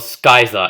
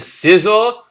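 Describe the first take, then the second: First: The word begins with an sk sound. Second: The word begins with a plain s sound.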